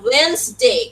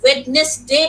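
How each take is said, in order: First: The middle d sound is silent. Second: The middle d sound is pronounced. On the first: The speaker calls it right. "ডি উচ্চারণ হবে না" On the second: The speaker calls it wrong. "This is not the actual pronunciation."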